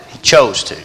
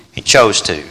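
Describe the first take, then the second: First: Said in the usual way. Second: Chose said lower, falling; low repeat. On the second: Real, not acted. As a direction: drop down and settle on chose.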